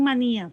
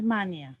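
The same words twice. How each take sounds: First: "manía" as ma-NÍ-a; marked hiatus. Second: "mania" as MA-nia, stress on the first syllable; wrong diphthong form. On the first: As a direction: stress the í in "manía", separate from the a. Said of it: "Manía sí marca hiato". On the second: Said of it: "la palabra no es mania". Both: Shown as a demonstration.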